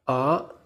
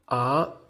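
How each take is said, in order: First: The pitch rises from low to high. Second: The pitch rises from low to high.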